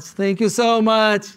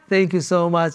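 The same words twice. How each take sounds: First: Higher, slower, leaning into so; grateful, stretched-out thanks to the crowd; delighted repeat thanks; emphatic thanks. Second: Said in the usual way. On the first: Real, not acted.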